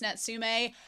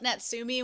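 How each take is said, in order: First: The name ends with an 'eh' sound. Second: The name ends with an 'ee' sound. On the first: The speaker calls it right. "when it's Natsume" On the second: The speaker calls it wrong. "I've been saying it wrong. I call it Natsumi"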